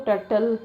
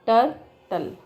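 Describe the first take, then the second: First: Said in the usual way. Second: "turtle" broken as tur... tle; "turtle" divided after tur, each syllable on its own; split into syllables. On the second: Shown as a demonstration. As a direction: say "turtle" in two pieces with a pause. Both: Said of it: "ऐसा".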